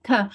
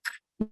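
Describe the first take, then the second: First: Ka with a voiced uh vowel stuck on the end; the mistaken ka, voiced and vowelled; wrong ka sound. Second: K as a short unvoiced puff with no vowel after it; k whispered, no uh tacked on; crisp k sound. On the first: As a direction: add the uh to make it ka. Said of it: "not ka". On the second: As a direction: say k clipped, just the burst. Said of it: "make sure that we are saying k, not ka". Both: Shown as a demonstration.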